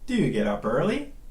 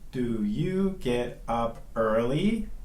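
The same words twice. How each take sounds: First: "Do you" is reduced to "do ya". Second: Each word of "do you" is said in full. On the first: The speaker calls it right. "it reduces to do ya" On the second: The speaker calls it wrong. "We don't say"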